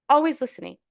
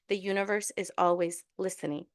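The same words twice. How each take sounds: First: "always" hit louder and higher; emphatic repeat. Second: Said in the usual way. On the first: Shown as a demonstration.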